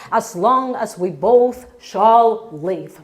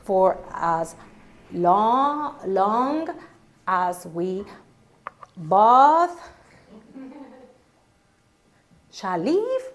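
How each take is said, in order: First: Said in the usual way. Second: "as long as we both shall live" broken up slowly with long gaps; confused bride stumbles through the vow; halting vow. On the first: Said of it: "repeat after her". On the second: Retold or imitated. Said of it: "Here it comes".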